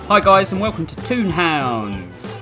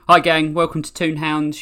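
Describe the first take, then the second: First: The greeting sounds over-enthusiastic and lively. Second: The greeting sounds restrained and stoic.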